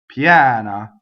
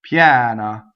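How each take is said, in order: Both takes have the same delivery.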